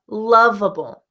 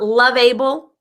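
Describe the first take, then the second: First: The ending has a reduced schwa vowel. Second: The ending has a full, unreduced vowel. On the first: The speaker calls it right. "the schwa" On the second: The speaker calls it wrong. "Not loveable"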